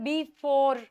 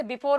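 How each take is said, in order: First: "before" split, weight on the second syllable; light "be", then a drawn-out "FORE" in "before"; stress on FORE. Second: Said in the usual way. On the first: Shown as a demonstration. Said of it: "stress करते हैं फोर पे". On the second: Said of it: "जैसे before word है".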